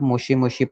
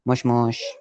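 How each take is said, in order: First: Each word ends with a clear vowel. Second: The final vowels are dropped in fast speech. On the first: This is how a beginner reads it. "अभी आप बिगिनर हो इसलिए आप मुशी मुशी पढ़ोगे" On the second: This is how native speakers say it quickly. "वो लोग जल्दी जल्दी बोलते हैं... सो वो मुश मुश हो जाता है"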